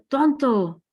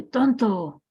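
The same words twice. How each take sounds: First: High, loud yell of an insult; mock shout. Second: Echo. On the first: Father yells an insult while walking with his son, loud mock shout. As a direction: bark it out like an angry father. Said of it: "el papá grita". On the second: Retold or imitated. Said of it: "escucha que el eco dice".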